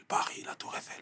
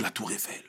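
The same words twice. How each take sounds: First: Breathed out in a wondering whisper; dreamy whisper. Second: Said in the usual way. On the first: Retold or imitated. Boy from Marseille dreaming of Paris, whispered. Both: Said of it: "Je me disais".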